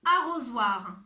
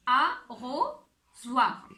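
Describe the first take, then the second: First: Said in the usual way. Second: Arrosoir stretched out very slowly, each syllable held; slow, drawn out. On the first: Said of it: "Et si je vous donne le mot". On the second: Shown as a demonstration. Teacher slowly stretching arrosoir for children to hear the sound. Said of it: "où est-ce qu'on entend le son O?".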